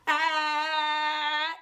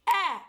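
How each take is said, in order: First: "ah" stretched long and slow; dragged-out sound. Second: "ah" short and crisp; short crisp sound. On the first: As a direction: drag the "ah" out past the snap. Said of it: "do not drag it out". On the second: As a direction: clip the "ah" with the snap. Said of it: "It's not ah, it's ah". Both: Shown as a demonstration.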